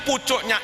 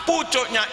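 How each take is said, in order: No difference in how they are said.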